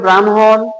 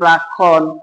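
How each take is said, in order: First: The middle cluster is said as 'hm'. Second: The middle cluster is said as 'kkh'. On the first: The speaker calls it right. "এই উচ্চারণ হবে" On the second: The speaker calls it wrong. "ক্ষীয় মনে করে অনেকে এটাকে বলে"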